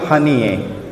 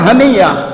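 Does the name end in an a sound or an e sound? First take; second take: e sound; a sound. First: The name ends with an e vowel. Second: The name ends with an a vowel. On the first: This is how people in the Levant say it. "mereka baca Ismail Haniyeh" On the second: This is how it is written. "tulisannya Haniyah"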